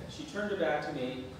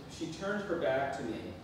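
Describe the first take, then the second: No difference in how they are said.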